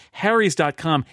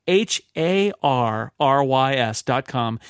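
First: Said in the usual way. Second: "H A R R Y S" spelled slowly letter by letter. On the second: Shown as a demonstration. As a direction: spell each letter out clearly.

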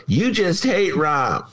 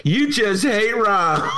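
First: Slow, mocking jab at a friend; mocking Romano. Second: Shouted Romano imitation. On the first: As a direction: drawl it out like a teasing colleague. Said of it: "Romano go". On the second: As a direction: yell it like the teasing colleague would. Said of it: "Romano's gonna say".

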